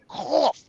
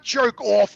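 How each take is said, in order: First: "Koff" with a hard K sound at the start; pron Koff. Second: "jerk off" as two words, vowel O sound; pron jerk off. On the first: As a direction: say "Koff" spelled with a K, stressing the K. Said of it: "with a K". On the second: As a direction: say "jerk off" like the insult, with an O. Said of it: "not jerk off with an O". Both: Shown as a demonstration.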